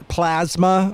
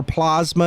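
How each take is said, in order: First: Said in the usual way. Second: Plasma said as "PLAHZ-muh"; Trump's pronunciation. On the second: Retold or imitated. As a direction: say plasma with a broad "ah" in the first syllable. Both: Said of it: "as Trump says".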